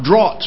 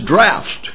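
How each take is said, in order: First: The word does not rhyme with laugh. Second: The word rhymes with laugh. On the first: The speaker calls it wrong. "It's not draught like you hear a lot" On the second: The speaker calls it right. "It's pronounced just like laugh"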